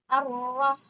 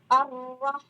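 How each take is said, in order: The two takes are said the same way.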